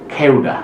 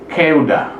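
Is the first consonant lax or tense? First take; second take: tense; tense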